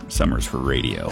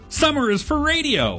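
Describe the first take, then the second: First: It is said in a flirty tone. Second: It is said in an excited tone.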